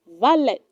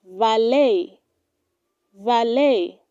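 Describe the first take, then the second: First: Valet ending in a hard t, "VAL-et"; wrong pronunciation. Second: Valet said as "va-LAY"; correct pronunciation. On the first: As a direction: sound the t of valet. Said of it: "do not say". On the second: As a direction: silent t in valet, ending on "lay". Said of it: "It is pronounced". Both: Shown as a demonstration.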